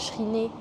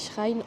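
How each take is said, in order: First: The word is pronounced with French sounds. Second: The word is pronounced with English sounds. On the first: The speaker calls it wrong. "ça se dit pas Shrine" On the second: The speaker calls it right. "ça se dit Shrine en anglais"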